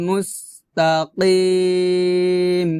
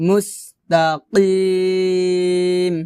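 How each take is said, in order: No difference in how they are said.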